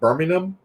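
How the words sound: It is said in an English accent.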